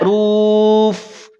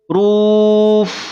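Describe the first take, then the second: First: The f keeps the rounded lips of ru. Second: The f returns to a thin unrounded sound. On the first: The speaker calls it wrong. "Tidak ruf" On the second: The speaker calls it right. "Ru-nya monyong, tapi pada huruf fa dia tipis"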